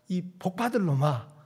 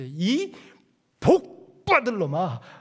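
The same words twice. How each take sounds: First: The syllable 복 is said without extra force. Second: The syllable 복 is pressed hard and forcefully.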